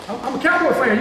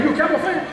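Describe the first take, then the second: First: A fan owning it, a touch louder and higher; proudly claiming the team, raised pitch; proud fan declaration. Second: High, bright-eyed question to the crowd; eagerly asking who else is a fan. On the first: Speaker to students, admitting Cowboys love, proud and lifted. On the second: Speaker asking the crowd about Cowboys fans, eager and high. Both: Real, not acted. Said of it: "you got me excited about the Cowboys".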